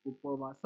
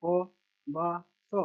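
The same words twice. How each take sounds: First: Said in the usual way. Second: Very slow, each syllable held apart. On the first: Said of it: "इसको बस मिला के पढ़ना है". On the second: Shown as a demonstration. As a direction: sound it out piece by piece for a learner. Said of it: "छोटा सा letter पढ़ लेना".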